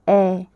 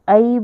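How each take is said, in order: First: The vowel is one steady open 'e' sound. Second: The vowel glides from 'a' toward 'i'. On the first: The speaker calls it right. "इसको कहना है ए" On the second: The speaker calls it wrong. "आप इसे आई बोलते हो ना"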